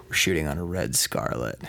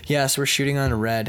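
First: Lower, deliberate tease; low mock-seductive repeat. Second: Said in the usual way. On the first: Filmmaker repeating camera name to actor, low tease. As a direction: drop it low to tantalize. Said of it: "Say it slow". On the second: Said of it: "Say that again".

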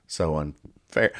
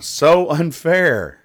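First: Low, slow, quiet sulk; deflated grumble. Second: High, drawn-out sulky complaint; mock whine. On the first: Acted. Penguin left out of passing, glumly grumbling. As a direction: let it sag, slow and soft. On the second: Penguin who failed the flying test, whining. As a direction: stretch it out high, wronged and pouting.

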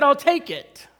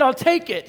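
First: Louder, higher, insistent I'll take it; impatient eager repeat. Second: Eager. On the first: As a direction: cut him off, desperate to have the car. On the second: Eager reply to salesman. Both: Retold or imitated.

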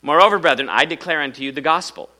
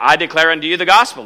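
First: Said in the usual way. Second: "gospel" hit louder, reread fast for emphasis; emphatic reread. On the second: Shown as a demonstration. Preacher rereading the verse to drive home "gospel". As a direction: punch the line again, louder and quicker. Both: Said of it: "There it is, right there".

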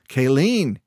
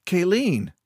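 First: Louder, insistent call of her name. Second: Higher-pitched protest, falling; calling her name. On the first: Keo trying to stop Kayleen's advances, louder. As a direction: say the name louder to get through. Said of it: "he said louder". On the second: Keo pulling back from Kayleen's kiss, protesting. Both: A narrator's reading.

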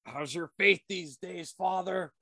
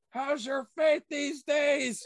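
First: Said in the usual way. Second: High, drawn-out dramatic demand; movie-line theatrics, pitched way up; hammed-up taunt. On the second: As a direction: build it into a loud, slow cry. Quoted movie line repeated, escalated.

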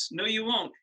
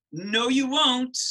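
First: Said in the usual way. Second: Slow, loud and higher insistence; emphatic no. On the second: Real, not acted. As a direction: draw each word out and push it hard.

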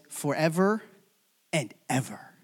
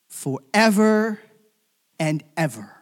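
First: Said in the usual way. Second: Stretched, forceful stress on "Forever"; emphatic repetition. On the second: Shown as a demonstration. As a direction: hit "Forever" hard and slow, pause, then "and ever".

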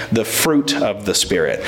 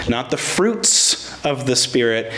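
First: "fruit" stressed and singular, lower and falling. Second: "fruits" said as the wrong plural, stressed. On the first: Preacher to church, stressing the singular "fruit". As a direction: land firmly on the singular "fruit". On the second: Preacher to church, correcting "fruits" with stress. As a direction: lean on the s of "fruits" to show the mistake. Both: Shown as a demonstration. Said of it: "I emphasize the word fruit".

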